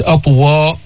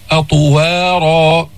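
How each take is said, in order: First: أطوا- clipped short without the long vowel; cut-off wrong reading. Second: أطوارا with the long ا fully held and a heavy ط; full long vowel. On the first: Teacher shows students how not to read أطوارا. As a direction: stop أطوا- too early. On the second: Teacher shows students the correct أطوارا. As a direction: stretch أطوارا out completely. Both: Shown as a demonstration. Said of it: "مش أطوا".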